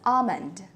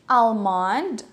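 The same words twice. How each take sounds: First: The L sound is silent. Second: The L sound is pronounced. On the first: The speaker calls it right. "All these words have a silent L" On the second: The speaker calls it wrong. "most of the Filipinos would say almond"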